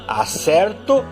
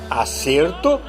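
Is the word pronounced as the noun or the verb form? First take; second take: verb; noun. First: It is pronounced as the verb form. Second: It is pronounced as the noun form. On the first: It means I get something right. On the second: It means an agreement.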